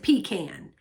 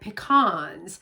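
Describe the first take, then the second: First: Pecan is said the South Carolina way. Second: Pecan is said the Texas way. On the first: "where I'm from in South Carolina, it's a pecan" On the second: "In Texas, I get here and they call it pecans"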